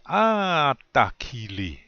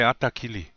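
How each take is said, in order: First: The first vowel is drawn out long. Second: The first vowel is short and plain. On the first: It sounds strongly emotional, like wow, really good. The speaker calls it right. "You kind of elongate that ah, yeah, the first one. So you say atakili. That's how you say it" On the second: It sounds odd, as if the speaker is off. The speaker calls it wrong. "You don't just say atakili"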